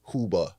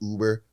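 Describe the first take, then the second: First: The word starts with an added h sound. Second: The word starts with a plain vowel sound. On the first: The speaker calls it wrong. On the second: The speaker calls it right.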